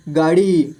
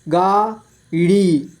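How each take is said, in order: First: Said in the usual way. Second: गाड़ी split slowly into गा, ड़ी; syllable by syllable. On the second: Shown as a demonstration. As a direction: stretch and separate गा and ड़ी in गाड़ी. (गाड़ी को तोड़कर धीरे: गा, ड़ी) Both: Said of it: "इस तरह से आपको".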